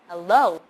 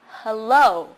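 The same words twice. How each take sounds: First: The first vowel sounds like eh. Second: The first vowel sounds like uh. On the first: "the first vowel sound is a eh, so hello" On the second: "the first vowel sound is uh"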